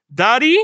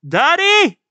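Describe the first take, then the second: First: Higher, louder questioning call; child calling daddy. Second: Very high, loud shout; child's cry for daddy. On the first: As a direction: call out for a parent, rising. Acting child calling for father. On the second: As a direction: scream out for a parent. Acting child screaming for father. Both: Acted.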